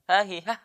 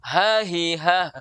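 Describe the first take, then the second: First: The breath on the h is cut off. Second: The breath on the h flows out freely. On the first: The speaker calls it wrong. "itu tidak mengalir kalau begitu" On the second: The speaker calls it right. "mengalir suara"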